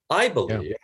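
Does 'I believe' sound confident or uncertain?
confident. It is said firmly and with conviction. The speaker truly holds this belief. The speaker calls it right. "I can confidently assert that I believe something"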